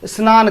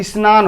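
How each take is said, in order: First: स्नान said snan, starting directly on sn-; स्नान with a bare sn- start; wrong pronunciation. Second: स्नान said isnan, a short i before sn-; स्नान with a light i- sound opening it; right pronunciation. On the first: Teacher showing students the mistaken form, स्नान said snan. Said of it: "स्नान करना नहीं". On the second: Teacher giving students the correct form, स्नान said isnan. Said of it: "स्नान होता है". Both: Shown as a demonstration.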